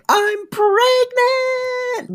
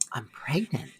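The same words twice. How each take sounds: First: It is said loudly, with big energy. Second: It is said quietly, with soft energy.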